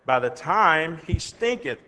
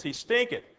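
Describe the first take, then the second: First: Said in the usual way. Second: "stinketh" lifted high with a rising tune; stress on stinketh. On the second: Shown as a demonstration. Preacher repeating the verse, stressing "stinketh" high. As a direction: lean up hard on "stinketh". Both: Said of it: "that is".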